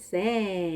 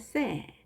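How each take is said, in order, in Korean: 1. 이 음절은 길게 늘여 발음합니다. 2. 이 음절은 짧고 강하게 발음합니다. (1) "쎄 이렇게 길게 하지 않습니다" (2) "짧고 강하게"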